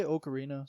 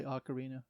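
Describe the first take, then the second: First: "ocarina" opening on a long OH; first pronunciation of ocarina. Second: "ocarina" opening on AH as in "octopus"; second pronunciation of ocarina. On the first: Gamer shows how some people say it, "ocarina" with an OH start. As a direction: say "ocarina" as oh-kuh-REE-nuh. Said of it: "Some people say ocarina". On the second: Gamer shows the other way, "ocarina" with an AH start. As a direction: say "ocarina" as ock-uh-REE-nuh. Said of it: "some people say ocarina". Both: Shown as a demonstration.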